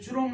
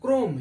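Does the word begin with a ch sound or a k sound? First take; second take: ch sound; k sound. First: The word begins with a ch sound. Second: The word begins with a k sound. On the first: The speaker calls it wrong. "चुरोम नहीं पढ़ते" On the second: The speaker calls it right. "लेकिन यहाँ क्रोम पढ़ते हैं"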